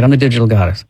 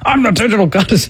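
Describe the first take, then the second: First: It is said reluctantly, without conviction. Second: It is said forcefully, with conviction.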